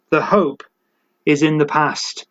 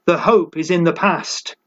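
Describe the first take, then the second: First: Weight on "is", falling after it; stress on is. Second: Said in the usual way. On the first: Shown as a demonstration. Preacher to congregation, stressing "is" in the past. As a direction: lean into "is" to fix it in the past. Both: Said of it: "They are not hoping in the present".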